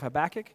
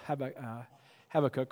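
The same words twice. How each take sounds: First: The name is said in an English way. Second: The name is said in a Hebrew way.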